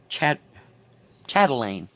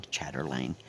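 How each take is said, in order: First: Chatelaine broken after "chat", then said whole and louder; corrected pronunciation. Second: Chatterlane said low and soft, with an extra r; mispronounced. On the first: Stitcher correcting herself after wrong tries, careful loud chatelaine without the r. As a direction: say chatelaine as "SHAT-uh-lane", no r. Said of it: "then I can't even say it right". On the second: Stitcher doubting her own word, mispronounced chatterlane as low "chatter-lane". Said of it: "After I said it wrong three times". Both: Real, not acted.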